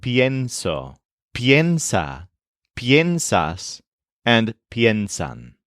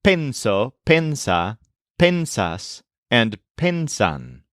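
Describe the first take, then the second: First: Pienso, piensa, piensas, piensan with PYEN stressed up front. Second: Penso, pensa, pensas, pensan with PEN stressed, no glide; hypothetical forms penso, pensa, pensas, pensan, unbent vowel; stressed plain pen. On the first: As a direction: list pienso to piensan with a y glide before the e. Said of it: "what it's landed on instead is". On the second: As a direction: list penso to pensan with a pure e up front. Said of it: "could have decided to stress". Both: Shown as a demonstration.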